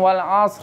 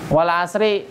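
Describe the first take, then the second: First: The word ends with a final r sound. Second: The word ends with an added i vowel. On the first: "ada yang wal asr. Gitu doang" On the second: "Wal asri. Tapi berhenti"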